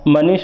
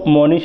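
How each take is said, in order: First: The vowels are plain and unrounded. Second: The first vowel is rounded, like 'o'.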